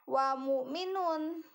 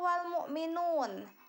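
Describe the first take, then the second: First: The l sound is left out. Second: The l sound is clearly pronounced. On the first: The speaker calls it wrong. "bukan dibacanya" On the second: The speaker calls it right. "wal di sana itu harus dibaca jelas"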